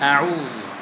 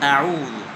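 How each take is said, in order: No difference in how they are said.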